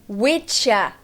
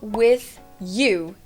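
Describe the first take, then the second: First: The words blend together with a 'cha' sound. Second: The two words are said separately and fully. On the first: "Esse with you pode virar witcha"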